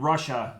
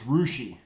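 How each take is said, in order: First: The name ends with an 'uh' sound. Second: The name ends with an 'ee' sound. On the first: This follows the spelling. "a town here that's spelled Russia" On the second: This is how the town's residents say it. "but it's Rushi"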